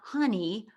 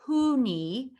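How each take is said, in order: First: The first syllable sounds like 'huh'. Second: The first syllable sounds like 'hoo'. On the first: "it's not honey" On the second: "It's not Hooney"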